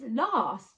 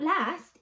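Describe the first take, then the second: First: It is said in a London accent. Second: It is said in a Manchester accent. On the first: "it's last" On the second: "it's not last"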